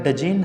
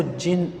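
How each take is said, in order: First: "डजिन" with an audible D before the J; D pronounced in jinn. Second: "जिन" starting straight on the J sound, no D; silent D. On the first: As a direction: sound out the silent D in "डजिन". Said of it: "इसको जिन पढ़ा जाएगा". ("डजिन" में ड की आवाज़ बोलकर) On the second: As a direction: drop the D and say "जिन". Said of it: "इसमें जो डी है वो साइलेंट". ("जिन" में ड बिना बोले, सीधे ज से) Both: Shown as a demonstration.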